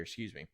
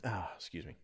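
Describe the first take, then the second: First: Hoarse, throaty excuse me after a cough; smoker's rasp. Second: Hoarse whisper after coughing; whispered excuse. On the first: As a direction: clear a raspy throat and excuse yourself. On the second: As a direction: breathe it out in a cough-worn whisper. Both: Real, not acted. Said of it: "smoker's cough after failing to smoke my pipe".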